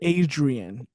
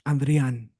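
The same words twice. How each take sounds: First: The name has an English-style D R sound. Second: The name has a crisp Spanish-style D R sound. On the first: The speaker calls it wrong. "I don't like my name in English" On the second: The speaker calls it right. "it's very crisp in Spanish"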